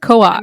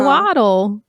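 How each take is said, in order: First: The word ends without any L sound. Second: The word ends with an audible L sound. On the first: The speaker calls it right. "like you don't pronounce the L" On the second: The speaker calls it wrong. "he's like"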